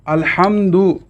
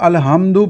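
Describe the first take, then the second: First: The h is a harsh throaty sound. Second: The h is a plain soft sound. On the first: The speaker calls it right. "ये इसका दुरुस्त तलफ़्फ़ुज़ है" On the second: The speaker calls it wrong. "दो आँखों वाली हा के साथ"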